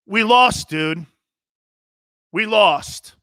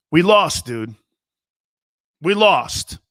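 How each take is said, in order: First: Higher, more heated raised-voice retort; voice rising. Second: Raised voice. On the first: Player cutting off a reporter's praise, voice raised. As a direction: re-enact losing patience, pitch jumping up. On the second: Player insisting to a reporter that they lost, raised voice. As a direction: imitate yourself starting to raise your voice. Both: Retold or imitated. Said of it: "I started raising my voice".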